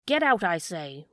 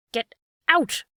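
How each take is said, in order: First: Lower, steadier repeated threat; a hint of menace, less shouted. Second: Loud, high threatening shout. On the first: Fisherman warning the dog once more, lightly menacing. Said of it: "repeated the fisherman". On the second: Fisherman threatening the hungry dog, loud shout. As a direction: bark it to drive the dog away. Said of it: "cried the fisherman threateningly". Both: A narrator's reading.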